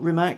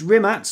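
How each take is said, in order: First: The name ends with a k sound. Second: The name ends with a ts sound. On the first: The speaker calls it wrong. "not Rimac" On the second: The speaker calls it right. "it's a tss sound"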